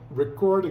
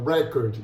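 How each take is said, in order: First: The stress is on the second syllable. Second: The stress is on the first syllable. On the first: It means to record or register. "por a tonicidade na segunda sílaba" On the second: It means a disc.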